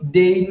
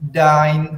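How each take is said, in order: First: The vowel is said as separate e and i. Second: The vowel is said as ai, like eye. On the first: The speaker calls it wrong. "nggak baca what is thine hobby, itu salah" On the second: The speaker calls it right. "huruf E I dibaca A I dalam bahasa Jerman"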